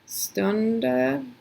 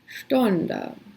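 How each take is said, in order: First: The word begins with a plain s sound. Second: The word begins with an sh sound. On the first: The speaker calls it wrong. "you might want to say like" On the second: The speaker calls it right. "but it's"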